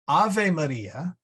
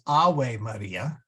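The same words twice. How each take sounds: First: It uses the ecclesiastical Latin pronunciation. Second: It uses the classical Latin pronunciation.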